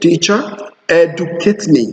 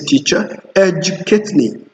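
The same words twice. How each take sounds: First: The d in educate is a plain d. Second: The d in educate is a j sound. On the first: The speaker calls it wrong. "you don't say" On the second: The speaker calls it right. "You say"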